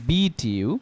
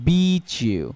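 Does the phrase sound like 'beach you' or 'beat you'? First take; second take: beat you; beach you. First: The t is said clearly before you. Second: The t and y merge into a ch sound. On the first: "স্বাভাবিকভাবে বললে এটাকে আমরা বলতাম" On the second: "কিন্তু এখন আমরা এটাকে বলবো বিচ ইউ"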